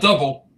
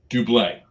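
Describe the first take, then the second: First: It sounds like the ordinary English word double. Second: It sounds different from the English word double. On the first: The speaker calls it wrong. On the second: The speaker calls it right.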